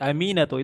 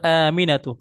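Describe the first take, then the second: First: The vowel after the m is long. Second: The first vowel is long. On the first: The speaker calls it wrong. "mimnya yang panjang ... itu salah juga" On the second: The speaker calls it right. "Yang benar"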